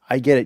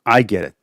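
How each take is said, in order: First: It is said in a plain, undramatic way. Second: It is said in a more dramatic way.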